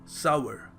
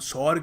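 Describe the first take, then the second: First: The word is said with two syllables. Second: The word is said with one syllable. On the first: The speaker calls it right. "इसको pronounce करने का सही तरीका क्या है? सावर" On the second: The speaker calls it wrong. "हम सौर कह देते हैं"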